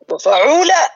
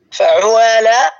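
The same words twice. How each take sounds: First: وفعولة with a clean long oo, wa-fa-ʕoo-laa, pitched high; damma becomes waw. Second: فعوالة drawn out as fa-ʕu-waa-laa, oo sliding awkwardly into aa; damma forced onto alif. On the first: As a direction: demonstrate وفعولة with a raised, drawn oo. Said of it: "سيخرج عندي هكذا". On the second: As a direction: show the hard-to-say فعوالة with both oo and long aa. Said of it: "صعبة على لسانك". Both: Shown as a demonstration.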